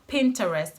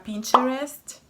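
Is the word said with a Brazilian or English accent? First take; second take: English; Brazilian. First: It is said with an English pronunciation. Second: It is said with a Brazilian Portuguese accent. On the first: "Mas em inglês é só Pinterest" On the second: "Em português você fala Pinterest"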